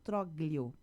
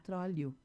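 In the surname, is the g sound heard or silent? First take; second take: heard; silent. First: The name is said as written, g sounded. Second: The name is said without a g sound. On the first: The speaker calls it wrong. "porque é assim que se escreve o sobrenome dele" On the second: The speaker calls it right. "a pronúncia do meu sobrenome não é assim, é Trólio"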